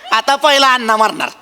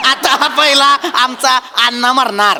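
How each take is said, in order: First: Said in the usual way. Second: Slow emphatic repeat. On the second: Acted. Repeats it slowly, adding आमचा.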